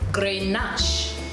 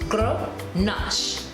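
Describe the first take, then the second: First: The first syllable has a full 'gren' vowel. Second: The first syllable is a reduced 'gruh'. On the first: The speaker calls it wrong. "in most English speaking persons or countries, we may say Grenache" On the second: The speaker calls it right. "the correct pronunciation is Gr, G R U U H, Nash"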